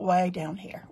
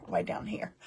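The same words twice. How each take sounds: First: Said in the usual way. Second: Playful whisper. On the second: Pretend. Host echoing the camera move to viewers, whispered. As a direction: drop to a whisper on the repeat.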